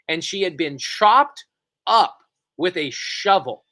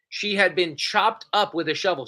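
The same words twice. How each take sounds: First: Slow, louder, each word of "chopped up with a shovel" leaned on; slow emphatic horror. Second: Said in the usual way. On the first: Real, not acted. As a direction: drag out "chopped" and "shovel" for shock. Shocking detail, then repeated.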